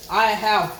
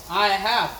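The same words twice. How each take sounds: The two takes are said the same way.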